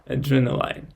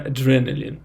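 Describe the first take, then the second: First: The final syllable sounds like 'line'. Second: The final syllable sounds like 'lin'. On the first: The speaker calls it wrong. "not adrenaline. As I thought in the beginning" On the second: The speaker calls it right. "ends like L I N. So in reads like in"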